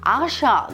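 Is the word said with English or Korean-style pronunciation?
Korean-style. It is said with Korean-style pronunciation. The speaker calls it wrong. "아시안 이렇게 발음하면 또 안 되고요"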